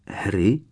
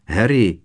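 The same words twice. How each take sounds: First: Tentative, questioning rise; timid. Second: Louder call, falling at the end. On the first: Hermiona hesitantly addressing Harry, timid. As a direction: address him shyly, as a question. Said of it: "oslovila ho nesměle Hermiona". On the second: Ron calling after Harry as he runs, calling out. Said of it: "zavolal za ním Ron". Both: A narrator's reading.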